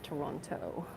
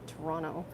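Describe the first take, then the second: First: It is pronounced the way outsiders say it. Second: It is pronounced the way locals say it. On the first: The speaker is not from the city. The speaker calls it wrong. "not Toronto" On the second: The speaker is from the city. The speaker calls it right. "If you're a local, you call it Toronto"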